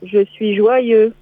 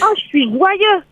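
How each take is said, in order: First: It sounds flat, without real joy. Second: It sounds truly joyful and lively.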